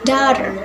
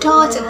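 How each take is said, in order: First: It is said in an American accent. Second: It is said in a British accent. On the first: "In American accents" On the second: "In British accents"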